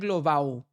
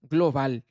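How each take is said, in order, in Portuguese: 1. O L final soa parecido com vogal. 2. O L final é pronunciado claramente. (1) "não é global" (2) "veja que o L aqui aparece"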